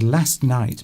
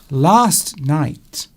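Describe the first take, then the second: First: The A vowel in 'last' is short. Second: The A vowel in 'last' is long. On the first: The speaker calls it wrong. "If I said last night, my mother would say, pardon" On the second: The speaker calls it right. "She would insist that I elongate my A's"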